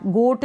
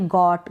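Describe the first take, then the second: First: गोट with a closed "oh" vowel; wrong long-o reading. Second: गॉट with an open "aw" vowel; open-o pronunciation. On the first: Teacher rules out a misreading, closed-o गोट. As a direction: say गोट as "goht". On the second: Teacher models the word for learners, open-o गॉट. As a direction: say गॉट as "gawt". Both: Shown as a demonstration. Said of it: "गोट नहीं पढ़ेंगे".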